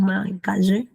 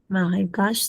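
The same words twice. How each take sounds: First: The final e is pronounced aloud. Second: The final e is silent. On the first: The speaker calls it wrong. "no decimos" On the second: The speaker calls it right. "tampoco suena la E"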